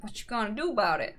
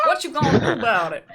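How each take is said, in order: First: Put-on quick clipped South African accent; imitating a South African woman. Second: Louder South African accent; hammed-up South African accent. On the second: Shown as a demonstration. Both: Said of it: "Do the accent again".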